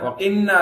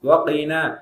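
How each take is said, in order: First: The n sound is held long and doubled. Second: The n sound is short and single. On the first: The speaker calls it wrong. "இது பலரிடத்துல என்ன தப்பு தெரியுமா வரும்?" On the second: The speaker calls it right. "ஏன் தேவையில்லாத ஷத்து?"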